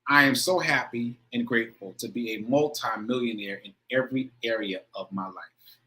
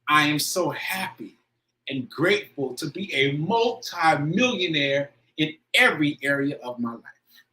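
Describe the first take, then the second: First: It is read plainly, without emotion. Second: It is read with strong emotion.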